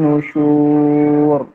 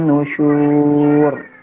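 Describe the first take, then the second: No difference in how they are said.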